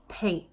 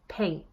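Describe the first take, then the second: First: The final t is glottalized. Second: The same.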